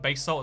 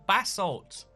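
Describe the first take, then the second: First: The word sounds like 'bay salt'. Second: The word does not sound like 'bay salt'. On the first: This is the speaker's own pronunciation. The speaker calls it right. "me saying base salt" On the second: This is how other people say it. The speaker calls it wrong. "It's actually basalt"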